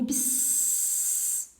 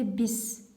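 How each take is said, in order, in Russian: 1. Звук s — долгий, шипящий, как змея. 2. Звук s — короткий и простой, без шипения. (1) "Это не бис, мы не змеи" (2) "Это бис"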